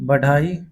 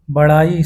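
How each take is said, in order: First: बढ़ाई with a hard stopped ḍh; बढ़ाई said as बढाई. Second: Said in the usual way. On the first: Shown as a demonstration. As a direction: say बढ़ाई without the flap. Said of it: "अशुद्ध होता है". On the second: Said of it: "शुद्ध है".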